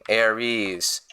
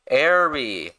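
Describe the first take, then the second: First: The name ends with an added z sound. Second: The name ends in a plain vowel sound. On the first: The speaker calls it wrong. "His name is not Ares" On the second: The speaker calls it right. "His name is mister Airy"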